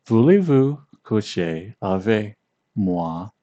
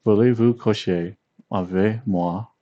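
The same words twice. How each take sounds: First: "Voulez-vous coucher avec moi?" drawn out slowly, each syllable separate, rising at the end; slow careful romantic French, English accent; slow seductive French. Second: "Voulez-vous coucher avec moi?" at normal pace with a light English accent; romantic French try. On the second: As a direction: smoother romantic French line. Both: Shown as a demonstration. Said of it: "it will sound very romantic".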